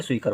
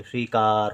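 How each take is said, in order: First: "स्वीकर" with a quick short vowel before r. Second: "स्वीकार" with the aa in का held; long aa. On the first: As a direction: say "स्वीकर" without lengthening the क. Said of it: "वैसे स्वीकर हो जाएगा". ("स्वीकर" में छोटा अ) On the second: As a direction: stretch the का of "स्वीकार". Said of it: "का को देर तक उच्चारण करेंगे". ("स्वीकार" में आ लंबा खींचकर) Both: Shown as a demonstration.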